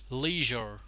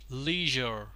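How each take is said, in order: First: It is said with an American pronunciation. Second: It is said with an American pronunciation.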